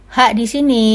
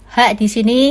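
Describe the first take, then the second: No difference in how they are said.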